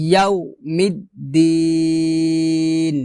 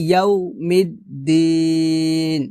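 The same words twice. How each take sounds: Both takes have the same delivery.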